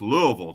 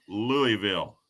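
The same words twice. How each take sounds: First: LOUISVILLE slurred as "LOO-uh-vul"; local Louisville pronunciation. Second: LOUISVILLE said as "LOO-ee-vil"; full Louie-ville pronunciation. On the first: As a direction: say Louisville the local way, middle vowel reduced to "uh". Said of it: "it's pronounced Louisville down there". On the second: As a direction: say Louisville slowly with a clear "ee" in the middle. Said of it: "How do you pronounce". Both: Shown as a demonstration.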